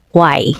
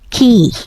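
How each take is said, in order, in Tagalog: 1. Binibigkas ang salita na may tunog na kw, parang kway. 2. Binibigkas ang salita na may payak na tunog na k, parang key. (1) "kung i-base nato siyang spelling, mabasa siya kway. Kway ba nagtinambanon" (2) "kasayon i-pronounce no, it's key"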